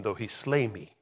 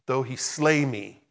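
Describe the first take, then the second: First: Said in the usual way. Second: "Though he slay me" slowed, with weight on "slay"; slow down and lean firmly on "slay"; emphatic repeat. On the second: Real, not acted. Preacher repeating Job's verse to congregation, stress on "slay".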